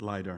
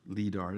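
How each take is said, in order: First: The word uses the usual American pronunciation. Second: The word uses a less common pronunciation. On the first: "we normally pronounce it LIDAR in American English" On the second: "LIDAR as well, if you want to pronounce it"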